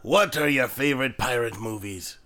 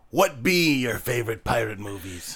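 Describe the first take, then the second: First: Said in the usual way. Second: Pirate grammar in a pirate voice. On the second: Shown as a demonstration. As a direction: say it like a ship's captain. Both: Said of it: "Oh, sorry".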